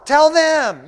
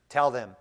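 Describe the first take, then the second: First: Loud exhortation. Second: Said in the usual way. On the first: Acted. Pastor commanding his congregation, loud. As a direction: Tell them shouted high and loud.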